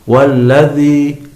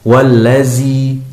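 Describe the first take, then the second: First: The dh sound is made thick and heavy. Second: The dh sound is replaced by a z. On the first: "huruf dzal ini ditebalkan" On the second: "huruf dzal seringkali diganti dengan huruf zai"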